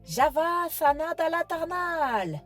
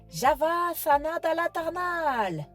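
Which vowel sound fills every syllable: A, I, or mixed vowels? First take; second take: A; A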